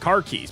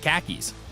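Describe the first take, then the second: First: It is said in a plain American accent. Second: It is said in a New York accent.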